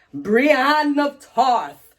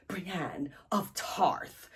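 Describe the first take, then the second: First: Drawn-out, raised dramatic name reveal; grand announcement. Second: Very slow, hushed dramatic whisper; whispered echo. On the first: Revealing who she meets on her travels, grand announcement. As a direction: announce it very slowly like a big entrance. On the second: Echoing the reveal of who she meets, whispered echo. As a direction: breathe the name out slowly, barely audible. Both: Real, not acted.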